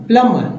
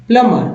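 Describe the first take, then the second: The two takes are said the same way.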